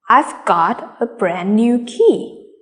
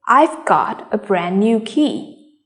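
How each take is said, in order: First: The key words are said with clear stress. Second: The same.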